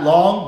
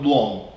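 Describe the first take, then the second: First: Long with an open ah; generic American vowel. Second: Long with a rounded aw; East Coast vowel. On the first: Teacher showing what they don't say, open vowel in long. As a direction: say long without the East Coast aw. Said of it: "Not long". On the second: Teacher showing normal accent, rounded aw in long. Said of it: "That's my normal accent". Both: Shown as a demonstration.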